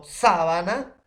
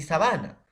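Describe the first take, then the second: First: "Sábana" con golpe fuerte en la primera sílaba, SÁ; acento esdrújulo. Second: "sabana" con el golpe en la sílaba BA; acento llano. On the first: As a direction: alarga y sube la SÁ de "Sábana". ("Sábana" acentuada en la primera sílaba) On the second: ("sabana" acentuada en la penúltima sílaba) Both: Shown as a demonstration. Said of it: "vamos a tener por el acento".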